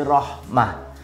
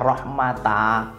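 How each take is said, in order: First: The word ends with an h sound. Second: The word ends with a t and vowel. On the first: The speaker calls it right. "ketika wakof berubah menjadi huruf H" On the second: The speaker calls it wrong. "bukan rohmata"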